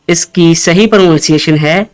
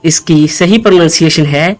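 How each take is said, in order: The two takes are said the same way.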